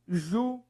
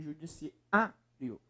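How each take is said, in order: First: Syllable by syllable. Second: "judiciário" with the A before "rio" held out; stress on A. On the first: Teacher splitting the last word for students, syllable by syllable. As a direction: pause after each syllable of "judiciário". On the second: Teacher showing the strongest syllable, stressed A. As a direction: lean on the A in "judiciário". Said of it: "é o A aqui". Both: Shown as a demonstration.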